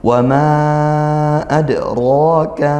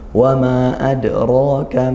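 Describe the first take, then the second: First: The vowel of "ma" is held long. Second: The vowel of "ma" is held short. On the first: "kita baca panjang" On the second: "membacanya cuman satu alif seperti itu"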